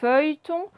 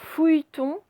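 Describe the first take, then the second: First: The first syllable has the 'eu' vowel. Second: The first syllable has the 'ou' vowel. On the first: The speaker calls it right. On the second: The speaker calls it wrong.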